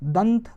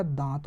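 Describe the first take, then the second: First: दंत with a short, clipped a before the nasal; दंत spoken with short a and full n; short vowel. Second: दांत with a long, nasalised aa, lower and softer; दांत said with long nasal aa; long nasal vowel. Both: Shown as a demonstration. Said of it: "दंत से क्या हो गया?".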